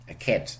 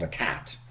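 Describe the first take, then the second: First: The vowel sounds like a German e sound. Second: The vowel is an English open a sound. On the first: The speaker calls it wrong. "oh, very German" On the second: The speaker calls it right. "not a cat"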